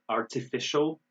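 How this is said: The middle consonant is a crisp T sound. "artificial in British"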